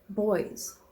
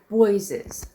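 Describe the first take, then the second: First: The word is said as a single syllable. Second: The word has an extra syllable at the end. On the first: The speaker calls it right. "There's no E" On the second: The speaker calls it wrong. "why do I say Boyses?"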